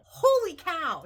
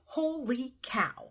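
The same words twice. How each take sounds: First: Loud, much higher burst of amazement; excited exclaim. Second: Whispered in awe, higher; breathless whisper. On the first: Vlogger shouting her joy at her savings to viewers. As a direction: let it burst out, thrilled. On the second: Vlogger stunned by her savings, whispering in awe. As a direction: hush it out, stunned. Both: Real, not acted. Shocked by the cash total.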